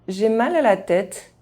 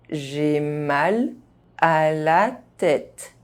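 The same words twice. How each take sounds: First: The phrase is spoken fast, sounds reduced. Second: The phrase is spoken at normal speed. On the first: This is how native speakers say it. "fast, as a native speaker would do" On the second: This is the pace learners should use. "at a normal pace"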